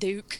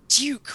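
First: It starts with a plain D sound. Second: It starts with a J-like sound. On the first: The speaker calls it right. "It's like D-O-O-K. That's how it's pronounced" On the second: The speaker calls it wrong. "It is not Duke with a J somewhere in there"

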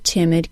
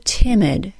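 First: The word is stressed less, with a shorter vowel. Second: The word is stressed more, with a longer vowel.

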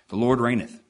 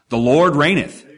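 First: It is said flatly, without emphasis. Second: It is said with strong emphasis.

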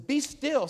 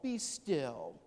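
First: It is said firmly in a sharp, commanding voice. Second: It is said softly in a soothing, cooing voice. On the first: A rebuke telling the listener to snap out of it. The speaker calls it right. "Snap out of it" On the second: A comforting reassurance, like calming a child. The speaker calls it wrong. "Not a gentle baby voice"

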